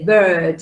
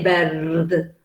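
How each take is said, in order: First: The R after the vowel is silent. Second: The R after the vowel is pronounced. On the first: The speaker calls it right. "You say bird" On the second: The speaker calls it wrong. "you don't say bird"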